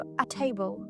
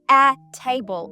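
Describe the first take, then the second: First: The article is weak and joined to the noun. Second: The article is clear and separate from the noun. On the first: The speaker calls it right. "я кажу a table. Начебто одне слово. Легесенько, невиразно" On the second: The speaker calls it wrong. "Я не кажу a table"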